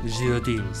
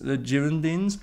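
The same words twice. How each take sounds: First: The name is said with a French accent. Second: The name is said with an English accent.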